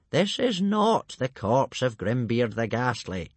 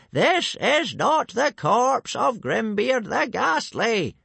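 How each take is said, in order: First: Slow, deliberate correction; calm old man. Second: High, loud, word-by-word shout; slow yelling. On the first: Old Wrinkly reassuring the panicking tribe, calm voice. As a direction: explain it slowly, word by word. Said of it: "Only old Wrinkly remained calm". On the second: Old Wrinkly yelling to hooligans who understand only shouting, slow shout. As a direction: bellow it slowly to get through. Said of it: "he started yelling". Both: A narrator's reading.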